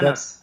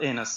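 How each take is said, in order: First: The name begins with an open 'a' sound. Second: The name begins with an 'e' sound. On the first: The speaker calls it right. "أنس, not Enos" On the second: The speaker calls it wrong. "not Enos"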